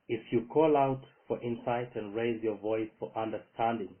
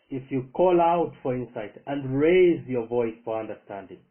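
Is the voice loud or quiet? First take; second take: quiet; loud. First: It is read at a normal, quieter volume. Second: It is read with a louder, raised voice. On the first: The speaker calls it wrong. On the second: The speaker calls it right.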